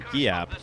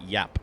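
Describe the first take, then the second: First: The name begins with a hard G sound. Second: The name begins with a Y sound. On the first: The speaker calls it wrong. "I was pronouncing it wrong with the hard G" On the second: The speaker calls it right. "You pronounce it Yap. It's a soft G"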